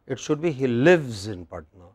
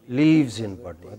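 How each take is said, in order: First: "lives" with a short i; "lives" clipped short, not "leaves"; correct lives. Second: "lives" with a long ee like "leaves"; wrong lives. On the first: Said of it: "It should not be". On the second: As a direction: stretch "lives" into "leeves". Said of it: "It should not be he". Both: Shown as a demonstration.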